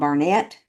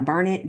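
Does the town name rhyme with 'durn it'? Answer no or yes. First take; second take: no; yes. First: The name does not rhyme with 'durn it'. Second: The name rhymes with 'durn it'. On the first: The speaker calls it wrong. "it's probably someone mispronouncing Burnett" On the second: The speaker calls it right. "Burnett, Durnett. ... they rhyme. So that's the correct way to say it"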